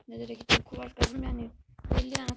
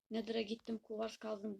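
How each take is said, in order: First: Louder emphatic repeat. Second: Said in the usual way. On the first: Real, not acted. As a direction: say it again, louder.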